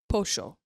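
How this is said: The double L sounds like 'sh'.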